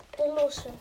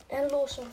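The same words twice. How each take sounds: The two takes are said the same way.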